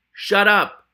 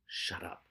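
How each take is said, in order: First: Loud, higher snapped shut up; furious loud shut up; shouted shut up. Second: Hissed, unvoiced shut up; quiet weary shut up; whispered shut up. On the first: Acted. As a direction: finally explode at him. Ratcatcher finally snaps. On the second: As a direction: clamp it down to a whisper. Ratcatcher silencing partner repeatedly.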